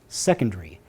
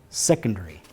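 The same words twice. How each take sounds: Both takes have the same delivery.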